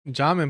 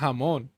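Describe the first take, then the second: First: The name is pronounced with an English reading. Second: The name is pronounced with a Spanish reading. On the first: "I always said like jamin" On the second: "if I read it in, in Spanish, I want to say jamon"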